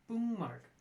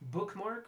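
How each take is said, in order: First: An ng sound replaces the k before m. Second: A clear k sound comes before the m. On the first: "the k is going to become the ng" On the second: "which a native English speaker can probably say with little to no difficulty"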